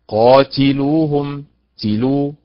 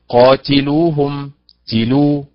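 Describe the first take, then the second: Both takes have the same delivery.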